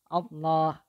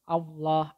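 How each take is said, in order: First: It is said with relaxed, unrounded lips. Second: It is said with lips pushed forward and rounded. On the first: The speaker calls it right. "bibirnya tidak boleh monyong ke depan" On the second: The speaker calls it wrong. "tidak boleh monyong ke depan bibirnya. Jadi tidak tidak boleh Allah"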